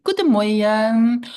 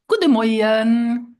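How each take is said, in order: First: Said in the usual way. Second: Slow, careful Luxembourgish Guten Morgen; Luxembourgish greeting. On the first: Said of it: "So you say". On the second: Shown as a demonstration. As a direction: say "Guten Morgen" slowly and clearly, as a model for learners. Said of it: "and this is in Luxembourgish".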